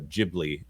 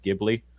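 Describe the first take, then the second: First: It is pronounced the way the studio says it. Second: It is pronounced the original Italian way. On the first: This is the name as the studio uses it. "it's Studio uh, Ghibli, according to D. Bud Martin" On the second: This is how the word is said in its source language. "In the original Italian, it's Ghibli"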